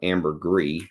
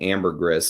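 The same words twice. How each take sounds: First: The final S sound is left silent. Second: The final S sound is pronounced.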